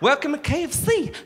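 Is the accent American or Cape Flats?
American. It is spoken in an American accent. "they're expecting it to be like Kentucky Fried Chicken, like home"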